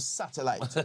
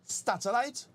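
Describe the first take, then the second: First: The word begins plainly with sat. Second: The word begins with an extra t: stat. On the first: The speaker calls it right. "instead of satellite" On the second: The speaker calls it wrong. "how she pronounced it"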